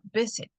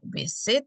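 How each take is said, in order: First: The stress is on the first syllable. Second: The stress is on the second syllable. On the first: The speaker calls it right. "sino visit" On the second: The speaker calls it wrong. "No digo eh, visit"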